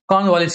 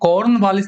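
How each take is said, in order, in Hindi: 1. r की ध्वनि मौन रहती है। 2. r की ध्वनि साफ़ बोली जाती है। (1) "आर साइलेंट हो जाता है इसमें" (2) "कॉर्नवालिस नहीं बोलते हैं"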